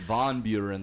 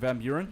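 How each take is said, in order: First: The first word is said with a 'von' vowel. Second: The first word is said with a 'van' vowel. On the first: The speaker calls it right. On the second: The speaker calls it wrong.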